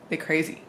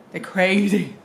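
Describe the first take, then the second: First: Said in the usual way. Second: CRAZY louder and drawn out; stress on crazy. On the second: Real, not acted. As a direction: lean hard on the word crazy. Repeats remark for emphasis.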